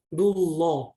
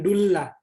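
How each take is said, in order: First: The 'l' of Allah is pronounced thick. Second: The 'l' of Allah is pronounced thin. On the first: The speaker calls it right. "dibaca tebal atau tafkhim. Jadi harus bacanya dullah" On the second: The speaker calls it wrong. "Bukan dullah"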